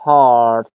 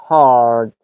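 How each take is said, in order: No difference in how they are said.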